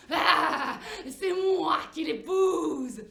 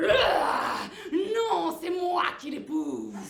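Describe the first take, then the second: First: Very slow, loud wolf bellow on moi; terrible wolf voice. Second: Higher, louder, slow booming claim; loud wolf claim. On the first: Wolf booming from the dark forest, slow roar. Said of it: "une terrible voix dans le noir". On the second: Wolf shouting from the dark forest, slow booming claim. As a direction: bellow it like a jealous wolf. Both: Acted.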